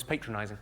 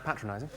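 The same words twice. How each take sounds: First: "patronising" with a long first A, PAY-tronising; American pronunciation. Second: "patronising" with a short first A, PAT-ronising; British pronunciation. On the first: Retold or imitated. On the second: Shown as a demonstration. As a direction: correct it to "patronising" starting like "pat". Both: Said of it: "I think you'll find that's pronounced patronising".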